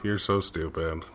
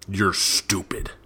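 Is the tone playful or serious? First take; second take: playful; serious. First: It is said in a playful, teasing tone. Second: It is said in a serious, cutting tone.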